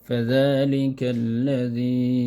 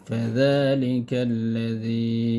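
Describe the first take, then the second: The two takes are said the same way.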